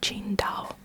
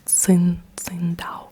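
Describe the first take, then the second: First: The name begins with a ch-like sound. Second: The name begins with a ts sound. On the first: The speaker calls it right. "it's actually pronounced Qin, Qingdao" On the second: The speaker calls it wrong. "on the bottle it says T S I N G D A O"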